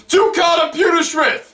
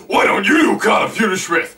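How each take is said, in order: First: High-pitched impression request; re-enacted shout. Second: Retorting reply. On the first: Fan requesting Carter Pewterschmidt, high shout. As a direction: holler it from the audience. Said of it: "I shouted him". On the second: Retold or imitated. Seth replying to the heckler, mock retort. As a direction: heckle thrown back, stressing YOU. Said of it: "then he replies to me".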